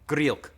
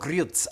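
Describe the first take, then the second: First: The name ends in a plain k sound. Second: The name ends in a ts sound. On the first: The speaker calls it wrong. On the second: The speaker calls it right.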